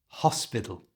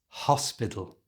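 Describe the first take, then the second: The two takes are said the same way.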